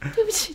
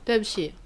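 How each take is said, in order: First: It sounds like a quick, polite apology. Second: It sounds like a reluctant, forced apology. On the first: Apologizing for stepping on someone. "我踩到别人的时候我是这样" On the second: Apologizing only because a partner demands it. "女朋友硬要你道歉的对不起。 对，就是这样嘛。"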